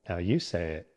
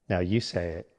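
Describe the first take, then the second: Both takes have the same delivery.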